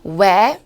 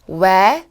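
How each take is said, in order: The two takes are said the same way.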